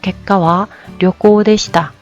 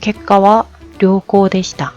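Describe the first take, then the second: First: The first vowel of ryokou is kept short. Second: The first vowel of ryokou is held long. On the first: The results were a trip. The speaker calls it wrong. "하면 일본 사람들이 못 알아듣습니다" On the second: The results were good. The speaker calls it right. "라는 말을 하고 싶어요"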